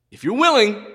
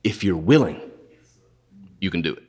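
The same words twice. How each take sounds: First: If you're willing sent up high, pleading; pleading leper. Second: Low, hushed plea, fading away; humble leper's plea. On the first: Leper begging Jesus, pitched up high. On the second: Leper to Jesus, hushed and humble. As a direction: ask it low, barely daring. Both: Retold or imitated. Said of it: "So you know what he says?".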